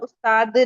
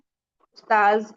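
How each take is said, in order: First: The word ends with a 'd' sound. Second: The word ends with a 'z' sound. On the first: Someone expert in a craft. The speaker calls it wrong. "उस्ताद नहीं कहना है" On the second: A teacher. The speaker calls it right. "उस्ताज कहना है"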